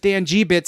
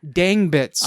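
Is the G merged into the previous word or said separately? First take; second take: separate; merged. First: The G is spoken as a separate letter. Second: The G is merged into one word, Dang. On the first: The speaker calls it right. "you're supposed to pronounce the letter G" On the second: The speaker calls it wrong. "not like Dang Bits"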